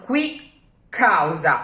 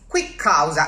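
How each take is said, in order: First: The two words are kept separate. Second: The words are joined by a doubled consonant. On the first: The speaker calls it wrong. "it's not quick causa" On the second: The speaker calls it right. "as if it was one word with a double consonant in the middle"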